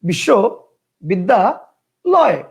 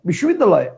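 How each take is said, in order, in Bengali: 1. শব্দটি তিনটি আলাদা ভাগে ভাঙা হয়েছে। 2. শব্দটি একটি অখণ্ড ভাগে উচ্চারিত হয়। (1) "তিনটা" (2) "একবারে ... একটা"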